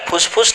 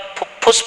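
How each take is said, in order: First: The word is said with an 's' sound. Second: The word is said with a doubled 'ph' sound. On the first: The speaker calls it wrong. "अरे फुसफुस नहीं बोलते बेटा" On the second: The speaker calls it right. "फुफ्फुस बोलते हैं"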